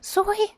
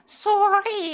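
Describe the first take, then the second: First: The r sound is weak or missing. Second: The r sound is clearly pronounced. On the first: The speaker calls it wrong. "That is not how you pronounce that word" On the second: The speaker calls it right. "It's sorry"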